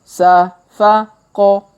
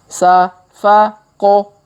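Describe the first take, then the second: Both takes have the same delivery.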